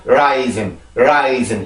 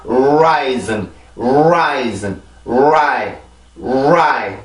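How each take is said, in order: First: Rising with the lips not pushed out; wrong way. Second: Rising with rounded lips thrust forward on the R; lips pushed out. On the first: Teacher showing the wrong rising without rounded lips. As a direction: say rising plainly, lips relaxed. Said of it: "이게 아니라". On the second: Teacher showing the right rising with lips forward. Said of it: "이렇게 입술이 나와서". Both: Shown as a demonstration.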